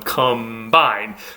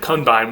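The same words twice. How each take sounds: First: An m sound comes before the b. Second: An n sound comes before the b. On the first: "assimilated to the B and become an M" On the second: "will naturally become"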